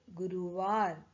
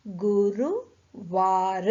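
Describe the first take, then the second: First: Said in the usual way. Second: गुरुवार drawn out slowly, syllable by syllable; slow teacher model of गुरुवार; slow syllable reading. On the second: Shown as a demonstration. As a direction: stretch गुरुवार slowly for the class. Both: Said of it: "इन शब्दों को पढ़ें।".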